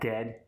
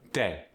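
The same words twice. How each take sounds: First: The final D is strong and full. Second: The final D is softened.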